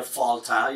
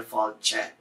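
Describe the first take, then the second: First: Fáilte with a hard T, "fawl-tah"; broad T, mispronounced. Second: Fáilte with a "ch" for the T, "fawl-cheh"; slender T. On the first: Teacher showing what you don't get in fáilte, hard broad T. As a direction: say fáilte with a plain t and "ah" ending. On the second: Teacher showing what you get in fáilte, slender "ch" T. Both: Shown as a demonstration. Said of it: "tells you to make the L and the T slender".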